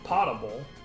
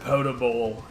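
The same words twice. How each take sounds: First: The first syllable sounds like 'pot'. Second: The first syllable sounds like 'poe'. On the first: This is the original pronunciation. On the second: This is the current everyday pronunciation.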